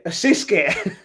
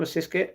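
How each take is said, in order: First: Louder, amused repeat with a falling end; delighted to have worked it out; amused exclamation. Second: Said in the usual way. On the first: Shown as a demonstration. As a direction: land the word as a punchline.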